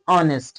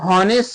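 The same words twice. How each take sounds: First: The word starts with a vowel, h silent. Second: The word starts with an audible h sound. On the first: The speaker calls it right. "H silent है, H पढ़ा नहीं जा रहा है" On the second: The speaker calls it wrong. "ये honest नहीं है"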